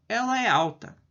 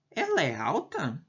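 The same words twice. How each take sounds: First: Said in the usual way. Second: "Ela é alta" posed as a yes-no question; questioning tune. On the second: Shown as a demonstration. Teacher translates an English question for students, in an asking tune. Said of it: "Uma pergunta".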